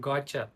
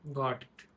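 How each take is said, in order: First: The words are blended into one reduced form. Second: The two words are said fully and separately.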